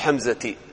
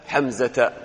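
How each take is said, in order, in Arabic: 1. ينتهي الاسم بحركة 'i'. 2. ينتهي الاسم بحركة 'a'.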